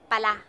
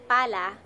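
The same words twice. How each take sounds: First: The stress is on the last syllable. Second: The stress is on the first syllable. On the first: It expresses surprise at a new discovery. "we're talking about pala" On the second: It names a shovel. "if you say pala, pala means shovel"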